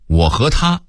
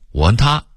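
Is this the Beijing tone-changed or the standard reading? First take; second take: standard; Beijing. First: It is read with the standard pronunciation. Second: It is read with the Beijing tone change.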